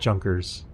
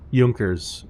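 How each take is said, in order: First: The name is pronounced the English way. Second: The name is pronounced the German way. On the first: The speaker calls it wrong. "not Junkers" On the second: The speaker calls it right. "probably how they were pronounced"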